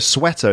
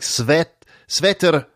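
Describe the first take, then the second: First: It starts with a plain W sound. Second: It starts with a V-like sound.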